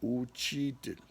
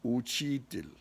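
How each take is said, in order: The two takes are said the same way.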